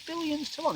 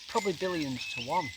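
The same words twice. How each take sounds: First: Very high, soft questioning repeat; incredulous echo. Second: Said in the usual way. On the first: Retold or imitated. Storyteller questioning the photographer's odds, high incredulous echo. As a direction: re-enact disbelief, pitch leaping up.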